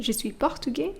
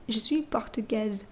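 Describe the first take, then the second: First: Portugais with silent s; plain masculine; masculine form. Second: Portugaise with a z at the end; feminine form. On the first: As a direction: end portugais on an open e. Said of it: "masculine form is portugais". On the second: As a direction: sound the z in portugaise. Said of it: "you just add an E". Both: Shown as a demonstration.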